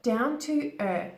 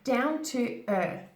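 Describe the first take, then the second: No difference in how they are said.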